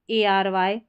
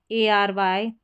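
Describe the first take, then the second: No difference in how they are said.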